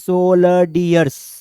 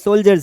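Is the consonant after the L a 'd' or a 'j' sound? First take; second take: d; j. First: It is said with a 'd' sound, like soldiyers. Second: It is said with a 'j' sound, like soljers. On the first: The speaker calls it wrong. "हम तो इसको पहले पढ़ेंगे सोल्डियर्स" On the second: The speaker calls it right. "फिर बड़े होके सही करेंगे कि ये सोल्जर्स है"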